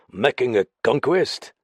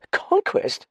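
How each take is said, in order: First: Said in the usual way. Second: Very high, startled echo. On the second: A narrator's reading. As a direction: repeat it in high-pitched alarm. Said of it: "repeated Dallings, startled".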